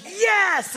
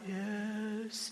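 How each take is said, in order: First: It is said loudly, with enthusiasm. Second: It is said flatly, without enthusiasm.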